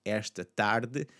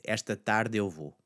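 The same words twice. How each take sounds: First: "esta tarde" slowly, ending on a swallowed e; unblended final e. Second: "tarde eu" merged in "esta tarde eu vou"; blended vowels. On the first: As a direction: say "esta tarde" alone, its last e barely there. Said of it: "This afternoon". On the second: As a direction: let the end of "tarde" melt into "eu". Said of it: "it's largely gonna blend in with that tarde". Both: Shown as a demonstration.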